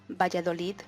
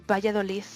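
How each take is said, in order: The two takes are said the same way.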